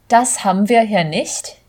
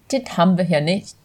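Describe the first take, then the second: First: It is said in standard German. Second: It is said in a harsher Berlin accent.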